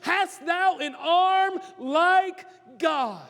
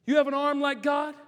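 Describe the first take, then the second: First: Slow and high, each word drawn out; slow scripture quote. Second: Said in the usual way. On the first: Shown as a demonstration. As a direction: lift the verse up slowly and weightily. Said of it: "reads scripture, slow and higher". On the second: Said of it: "restated plainly".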